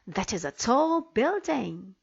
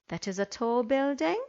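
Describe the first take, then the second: First: It is said excitedly, with strong feeling. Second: It is said plainly, without strong feeling. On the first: The speaker calls it right. "I will read them correctly" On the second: The speaker calls it wrong. "the intonation was all wrong"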